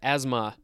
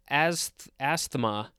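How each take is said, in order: First: The word is said the usual way. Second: The word is said as it is spelled. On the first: The speaker calls it right. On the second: The speaker calls it wrong.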